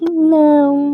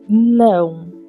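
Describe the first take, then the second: First: It is said in a coy, flirty way. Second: It is said in a flat, firm way.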